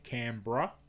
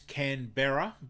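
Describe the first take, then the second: First: The middle vowel is cut out. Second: The middle vowel is fully pronounced. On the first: "we cut out the E and we say Canberra" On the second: "Canberra is Canberra"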